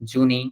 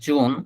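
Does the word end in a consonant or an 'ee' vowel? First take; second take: ee vowel; consonant. First: The word ends in an added ee vowel. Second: The word ends in an n sound. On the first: The speaker calls it wrong. "এটাকে জুনি উচ্চারণ করা যেত না?" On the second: The speaker calls it right. "আমরা জানি এই তিনটা শব্দেরই কেমন উচ্চারণ হবে"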